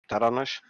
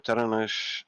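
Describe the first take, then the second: First: The stress is on the second syllable. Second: The stress is on the first syllable. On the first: This is how the old name reads. "reading in the Dutch way, emphasis on the second syllable" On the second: This is how the current spelling reads. "the emphasis is on the first syllable"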